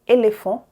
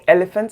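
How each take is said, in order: First: It is said with French vowel sounds. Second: It is said with English vowel sounds. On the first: The speaker calls it right. "I said école, éléphant" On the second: The speaker calls it wrong. "as I would say in English"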